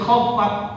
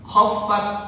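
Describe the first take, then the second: No difference in how they are said.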